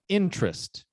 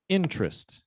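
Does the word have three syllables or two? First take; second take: two; two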